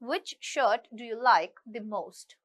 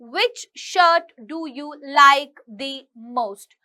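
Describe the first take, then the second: First: The jaw stays fairly closed with rounded lips. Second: The jaw drops wide on every word. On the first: The speaker calls it right. "बिना ज्यादा drop किए बोलेंगे तो वो एक बहुत ही fluently चीज" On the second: The speaker calls it wrong. "बहुत ज्यादा ऐसे ऐसे"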